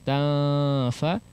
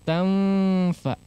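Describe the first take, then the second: First: The nasal is dropped, lips held far apart. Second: The lips press together into an m sound. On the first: "tidak terlalu jauh ta fa" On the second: "tidak menempel kemudian ditekannya"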